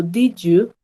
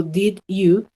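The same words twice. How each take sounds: First: "Did you" złączone jako "didju", bez pauzy; połącz "Did you" w jeden ciąg; linked did you. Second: "Did you" z wyraźną pauzą między did i you; choppy did you. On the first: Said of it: "yo digo". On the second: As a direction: rozdziel "Did" i "you" osobno. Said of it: "Yo no digo". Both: Shown as a demonstration.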